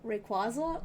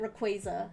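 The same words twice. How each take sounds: First: "Rayquaza" as ray-KWAH-zuh, rising. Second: "Rayquaza" as ruh-KWAY-zuh. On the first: Answering partner's Pokemon name quiz, "Rayquaza" as ray-KWAH-zuh. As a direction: ask "Rayquaza" with an AH in the middle. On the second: Offering partner the other option, "Rayquaza" as ruh-KWAY-zuh. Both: Shown as a demonstration. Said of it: "correct way to pronounce".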